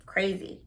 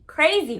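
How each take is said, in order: First: Said in the usual way. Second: "Crazy" punched higher and louder; emphatic repeat. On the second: Real, not acted. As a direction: hit "Crazy" hard with a high, falling pitch.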